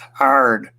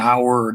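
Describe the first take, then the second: First: The name is said as one growled syllable. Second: The name is said with two syllables. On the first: This is how the family in the South said it. "sort of like one long growling, you know, group of consonants" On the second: This is how people elsewhere say it. "that's not the way we pronounced it down there"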